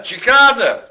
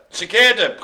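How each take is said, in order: First: "Cicada" said chi-KAH-da; alternative pronunciation. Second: "Cicada" said si-KAY-da; alternative pronunciation. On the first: Host unsure of the word, trying "Cicada" as chi-KAH-da. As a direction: say "Cicada" with an AH in the middle. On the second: Host unsure of the word, trying "Cicada" as si-KAY-da. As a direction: say "Cicada" with an AY in the middle. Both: Shown as a demonstration. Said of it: "I can't remember how to pronounce it".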